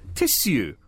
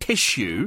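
First: The middle consonant is a plain 's' sound. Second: The middle consonant is an 'sh' sound. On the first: The speaker calls it right. "there's no H in it. It's two S's" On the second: The speaker calls it wrong. "not tissue"

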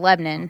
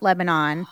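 First: Sounds are dropped, so the word is shortened. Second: Every syllable of the word is said clearly. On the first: "it gets reduced to Lebanon most of the time" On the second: "It's not Lebanon"

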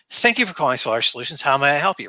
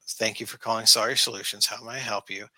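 First: It sounds happy and cheerful. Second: It sounds bored and unwilling.

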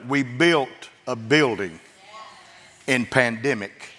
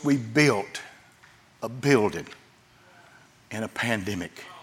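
First: It is said more loudly. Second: It is said more quietly.

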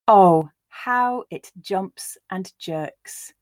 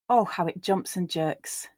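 First: The line is said slowly. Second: The line is said at a natural pace. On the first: "I'll read it first slowly for you to grasp the words" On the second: "Then I'll read it at a more natural pace"

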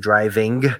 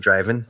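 First: The final g sound is clearly pronounced. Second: The final g sound is dropped. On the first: "So we wouldn't say driving" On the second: "We would just say driving"

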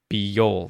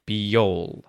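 First: A y sound glides between the two words. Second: A y sound glides between the two words.

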